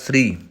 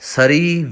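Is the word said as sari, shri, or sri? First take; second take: sri; sari. First: A brief s runs straight into r. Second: A full vowel is sounded after the s. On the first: The speaker calls it right. "ਸਹੀ ਉਚਾਰਨ ਹੋਏਗਾ ਸ੍ਰੀ" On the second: The speaker calls it wrong. "ਸਰੀ ਵੀ ਗਲਤ ਹੈ"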